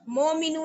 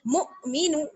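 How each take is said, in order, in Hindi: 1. पहला स्वर पूरा 'o' जैसा है। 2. पहला स्वर बारीक 'u' जैसा है। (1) "मोमिनू नहीं" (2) "बल्कि मुमिनू"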